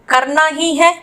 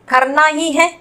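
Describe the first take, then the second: Both takes have the same delivery.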